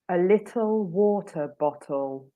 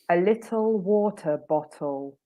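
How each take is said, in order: First: The T sounds are pronounced clearly and carefully. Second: The same.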